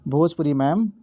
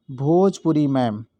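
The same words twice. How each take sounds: First: Said in the usual way. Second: Bhojpuri ma'am spaced out slowly, word by word; slow teacher's recital of the trick; slow mnemonic. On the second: Shown as a demonstration. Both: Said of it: "आपको ध्यान रखना है".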